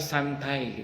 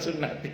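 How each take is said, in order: First: The word is said as two syllables, 'santai'. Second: The word is said as three syllables, 'sunnati'. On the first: The speaker calls it wrong. "ada orang yang salah baca" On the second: The speaker calls it right. "Padahal sunnati"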